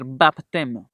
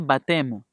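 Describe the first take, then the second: First: The P sound is pronounced. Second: The P sound is silent. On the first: The speaker calls it wrong. "no podemos decir baptême" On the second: The speaker calls it right. "se pronuncia baptême. Esa P no se pronuncia"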